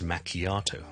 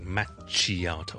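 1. 中间的辅音是 'k' 音。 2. 中间的辅音是 'ch' 音。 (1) "係it's macchiato" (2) "由於見到個ch 咧，就讀成chi，唔好讀成macchiato"

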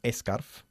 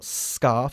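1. La palabra empieza con una vocal antes de la s. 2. La palabra empieza directamente con el sonido de la s. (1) "y no scarf" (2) "como digo scarf ... empezando con este sonido de la S"

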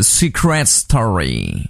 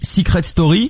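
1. C'est prononcé avec une tentative d'accent anglais. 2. C'est prononcé avec un accent français simple. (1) "il essaie de faire avec l'accent" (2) "la France entière dit Secret Story"

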